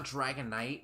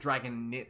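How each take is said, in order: First: The last syllable sounds like 'night'. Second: The last syllable sounds like 'nit'. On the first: The speaker calls it right. "the I is pronounced I" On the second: The speaker calls it wrong. "like it's not Dragon Knit"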